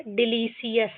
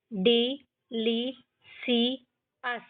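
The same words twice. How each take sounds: First: Said in the usual way. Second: डिलीशियस slowly split, डि, ली, शि, यस; syllable by syllable. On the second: Shown as a demonstration. Teacher shows how all are to be read, डिलीशियस slowly broken up. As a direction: gap after each syllable of डिलीशियस. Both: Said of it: "इस तरीके से हमको ये सारे पढ़ने हैं".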